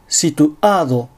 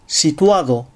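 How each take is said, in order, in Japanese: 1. 声門閉鎖が単語の途中で言葉を区切ります。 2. 声門閉鎖はなく、単語は滑らかに流れます。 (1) "単語の途中に正門閉鎖を入れてしまう" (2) "正しく"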